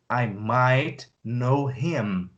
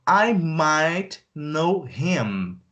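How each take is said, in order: First: Lower, slow, leaning on "might"; low slow repeat; slow, low stress on might. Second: Stretched, careful read; slow teaching voice; very slow model sentence. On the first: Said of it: "repeat take". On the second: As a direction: stretch every word. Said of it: "slow model take". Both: Shown as a demonstration.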